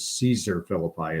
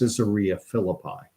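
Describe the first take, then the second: First: The first word is said as Caesar. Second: The first word is said as Caesarea. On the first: The speaker calls it wrong. "which I often mispronounce as" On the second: The speaker calls it right.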